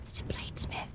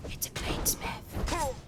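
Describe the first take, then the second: First: Breathless excited whisper. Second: Slow, breathy, awed; slow whisper. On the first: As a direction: hush it out, thrilled. Repeats the find in a whisper. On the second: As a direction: stretch it out in awe. Repeats the find, drawn out. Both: Real, not acted.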